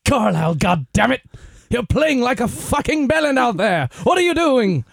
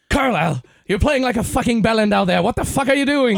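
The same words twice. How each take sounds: First: Put-on loud, high British accent yelling at a player; furious British coach bawling out his man; shouting in a British accent; angry British coach. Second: Put-on loud, high British accent yelling at a player; furious British coach restarting the rant; shouting in a British accent; British coach again. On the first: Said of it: "faire un accent britannique". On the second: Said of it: "recommence, vas-y".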